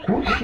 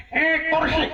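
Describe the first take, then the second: First: Said in the usual way. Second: A high, sudden cry of "Eh, kursi", yelped like a mother mid-labour; startled blurt. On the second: Retold or imitated. Mother in childbirth blurting the first word, startled high yelp. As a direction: blurt "Eh, kursi" as if caught by surprise. Mother names baby at birth.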